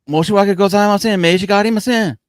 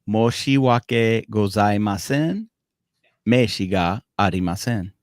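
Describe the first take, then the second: First: It is said at natural native speed. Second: It is said slowly and deliberately.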